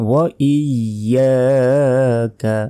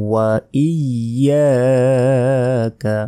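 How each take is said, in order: The two takes are said the same way.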